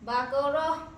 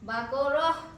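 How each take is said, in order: First: The word ends with a soft h sound. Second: The word ends with a soft h sound.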